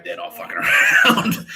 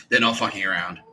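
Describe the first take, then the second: First: Loud cry breaking into laughter; hammed-up alarmed yell; mock warning shout. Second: Said in the usual way. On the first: Retold threat to scare them.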